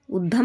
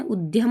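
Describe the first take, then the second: First: उद्यम without y, ud-dam; wrong form. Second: उद्यम with y glide, ud-yam; correct form. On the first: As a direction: drop the y from उद्यम. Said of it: "नहीं होता है". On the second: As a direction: sound the y in उद्यम. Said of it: "होता है". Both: Shown as a demonstration.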